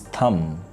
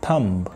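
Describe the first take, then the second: First: No b sound is heard at the end. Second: A b sound is heard at the end. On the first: The speaker calls it right. "the correct word is thumb" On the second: The speaker calls it wrong. "B is totally silent, but we mispronounce it"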